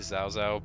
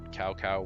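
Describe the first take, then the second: First: The name is said with a Mandarin-like pronunciation. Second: The name is said with an anglicized pronunciation. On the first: "it's supposed to be" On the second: "Western pronunciations a little bit different"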